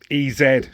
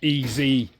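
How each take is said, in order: First: The Z is said the British way. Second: The Z is said the American way.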